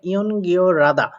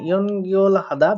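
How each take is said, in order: First: The h is dropped and l links forward. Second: The l and h are both clearly pronounced.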